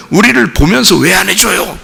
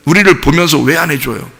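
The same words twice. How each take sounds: First: Higher-pitched mock protest; acted complaint. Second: Said in the usual way. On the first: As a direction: complain to God on the people's behalf. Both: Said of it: "또 이런다고요".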